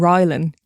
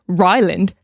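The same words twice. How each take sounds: First: The name is asked in a plain, neutral way. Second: The name is asked in a mocking, condescending way. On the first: The speaker simply checks which person is meant. The speaker calls it right. "you wouldn't just say, oh, do you mean Ryland?" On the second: The speaker looks down on the other person's mistake. The speaker calls it wrong. "You had to be like, Ryland? ... condescending prick"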